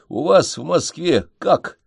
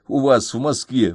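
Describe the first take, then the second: First: "вас" hit as the high peak of the question; stress on ВАС. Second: Said in the usual way. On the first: Acted. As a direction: lean on "вас" in "У вас в Москве как?". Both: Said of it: "над этим моим «у вас»".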